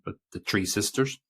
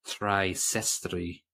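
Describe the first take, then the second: First: Said in the usual way. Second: "Sestry" said the Russian way, slow Russian accent; slowly in a Russian accent, "Three Sestry". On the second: Shown as a demonstration. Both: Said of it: "which is my Russian accent".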